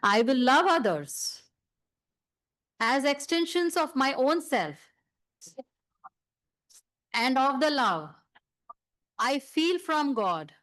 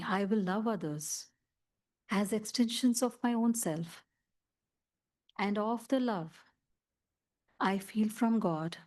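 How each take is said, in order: First: It is said loudly. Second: It is said very softly.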